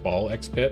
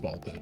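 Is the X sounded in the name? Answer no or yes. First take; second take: yes; no. First: The X is spoken between the two words. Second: The X is left out between the words. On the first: "Sometimes I respect the fact that it's ball X pit" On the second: "sometimes I do not respect the fact"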